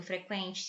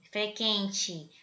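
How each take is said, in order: First: Said in the usual way. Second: "frequente" said fre-KEN-te, without the w sound; u left silent. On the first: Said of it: "ainda pronuncia como se tivesse o trema". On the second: Shown as a demonstration. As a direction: drop the u in "frequente", k straight into e. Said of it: "Você não fala assim". ("frequente" sem pronunciar o u)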